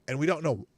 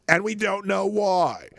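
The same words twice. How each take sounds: First: Said in the usual way. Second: "why" hit high, loud and slow; slow down, punch "why"; stress on why. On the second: Real, not acted. Repeats phrase with emphasis.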